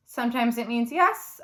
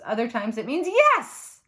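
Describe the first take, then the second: First: "yes" with a rising, questioning tune. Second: "yes" with a firm falling tune. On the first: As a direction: let "yes" lift up like a question. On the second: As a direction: drop "yes" down flat and final. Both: Shown as a demonstration. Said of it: "a word that comes in many flavors".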